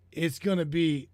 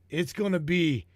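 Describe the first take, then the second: No difference in how they are said.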